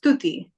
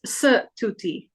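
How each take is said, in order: First: "Stuti" with the s running straight into the t, no vowel; "Stuti" in two syllables, the correct way; right way. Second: "Stuti" with an extra uh between the s and the t; "Stuti" broken into three syllables, the wrong way. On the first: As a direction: say "Stuti" as stoo-tee, with only half an s sound. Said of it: "it's just Stuti". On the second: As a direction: say "Stuti" as suh-too-tee, slowly, adding a vowel after the s. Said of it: "It's not Stuti". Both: Shown as a demonstration.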